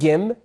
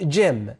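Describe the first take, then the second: First: The word begins with a hard G sound. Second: The word begins with a J sound. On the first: The speaker calls it wrong. "We don't say gym" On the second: The speaker calls it right. "we say gym"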